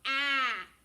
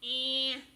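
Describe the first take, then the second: First: The vowel is an open, plain ah. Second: The vowel is nasal, closer to eh. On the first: "Normally she says ah" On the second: "she becomes more of an eh, nosy sound"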